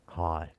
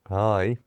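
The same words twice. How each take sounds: First: It is said in a sexy, seductive voice. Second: It is said in a dopey, dim voice. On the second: "let's go back to Dopey"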